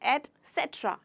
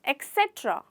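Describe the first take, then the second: First: The word begins with an 'et' sound. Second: The word begins with an 'eks' sound. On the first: The speaker calls it right. "Actual में इसका pronunciation है एटसेट्रा" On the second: The speaker calls it wrong. "कई बार ऐसे लोग कहते हैं एक्सेट्रा"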